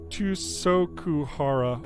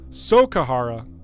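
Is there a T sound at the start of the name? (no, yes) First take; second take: yes; no. First: The name starts with a T sound. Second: The name starts without any T sound. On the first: The speaker calls it wrong. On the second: The speaker calls it right. "Just a silent T"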